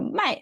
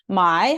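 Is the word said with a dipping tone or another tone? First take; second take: other; dipping. First: The word carries a tone other than dipping. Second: The word carries the third, dipping tone. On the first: It means to sell. "팔다가 돼요" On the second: It means to buy. "삼성이면서 사다를 나타내고"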